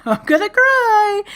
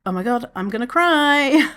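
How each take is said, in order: First: High, slow, wobbly laugh-cry; about to cry. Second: Said in the usual way. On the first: Retold or imitated. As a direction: squeak it out as tears come. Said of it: "I started crying". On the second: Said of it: "I was just like".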